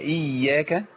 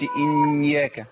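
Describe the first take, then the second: First: The ya sound is made without nasal resonance. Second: The ya sound is pushed through the nose. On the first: The speaker calls it right. "هي إياك" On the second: The speaker calls it wrong. "ما جابش الياء من الأنف، ما قولش إياك"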